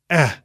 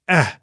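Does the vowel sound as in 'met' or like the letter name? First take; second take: as in met; as in met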